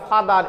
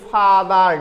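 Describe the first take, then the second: First: Said in the usual way. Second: ফাদার stretched as two parts, fa-dar; split into syllables. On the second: Shown as a demonstration. Teacher showing students two syllables in ফাদার, stretched apart. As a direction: draw out each syllable of ফাদার. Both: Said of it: "এটাকে যদি এরকম করি".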